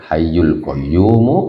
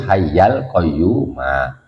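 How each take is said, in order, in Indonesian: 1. Akhiran kata memakai vokal 'u'. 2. Akhiran kata memakai vokal 'a'. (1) "bukan hayyul qayyumu" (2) "tapi hayyal qayyuma"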